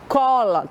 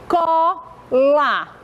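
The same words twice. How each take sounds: First: Said in the usual way. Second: "Cola" as two held pieces, co, la; syllable by syllable. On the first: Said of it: "Tem quantas letras?". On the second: Shown as a demonstration. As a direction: break "Cola" in two with a clear pause. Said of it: "Quantas vezes a tia fez movimento".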